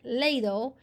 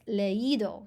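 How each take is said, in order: First: The two vowels run together in one syllable. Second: The two vowels are said as separate syllables. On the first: The speaker calls it wrong. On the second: The speaker calls it right. "So you put the accent on the I"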